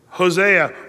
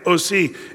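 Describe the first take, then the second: First: The name starts with an H sound. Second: The name starts with a vowel sound. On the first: This is the usual English form of the name. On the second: This is the form used in the Greek translation.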